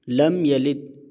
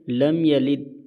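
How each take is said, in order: No difference in how they are said.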